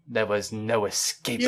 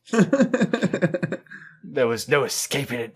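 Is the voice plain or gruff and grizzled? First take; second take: plain; grizzled. First: The voice is fairly plain, not very gruff. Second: The voice is rougher and more gravelly. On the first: The speaker calls it wrong. "You you don't sound grizzled enough" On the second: The speaker calls it right. "I need to sound more grizzled"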